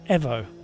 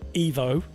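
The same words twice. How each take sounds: First: The word is said the Italian way. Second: The word is said the common non-Italian way. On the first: "the Italians prefer the pronunciation Evo" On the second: "In a lot of parts of the world, we pronounce E V O as Evo, as in Mitsubishi Evo"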